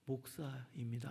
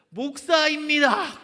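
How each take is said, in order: First: It is said in a tiny, very quiet voice. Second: It is said in a loud, clear voice. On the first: The speaker is embarrassed to admit it. "개미 들어가는 목소리로" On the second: The speaker openly admits it. "크게 말씀해 보세요"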